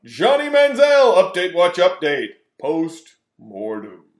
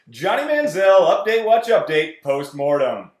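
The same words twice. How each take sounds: First: Loud announcer call dying down slowly; shouted title fading out. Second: Loud booming announcer shout; shouted segment title. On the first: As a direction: start big then trail off. Echoing segment title, fading out. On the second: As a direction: bellow the segment name. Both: Acted.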